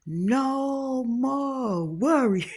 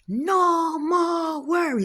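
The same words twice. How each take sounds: First: Very slow, stretched-out repeat; repeating the cook. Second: Very high, slow chanting repeat; repeating the cook. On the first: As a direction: draw "worry" out, slow and solemn. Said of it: "So I had to do like this". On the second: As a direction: echo the blessing slowly and high. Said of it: "No, you say". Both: Retold or imitated.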